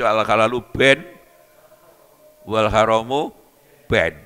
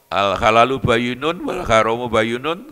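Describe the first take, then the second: First: The word is clipped to a short ben. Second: The word bayyinun is said fully, with all vowels. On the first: The speaker calls it wrong. "gak ono harokate diwaca" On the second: The speaker calls it right. "Ibriti diwaca"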